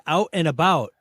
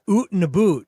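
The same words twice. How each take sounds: First: Said in the usual way. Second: Exaggerated Canadian "oot and a boot"; mock Canadian accent. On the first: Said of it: "He said". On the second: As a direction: tease a Canadian accent with long oo vowels. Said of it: "Brett has an accent".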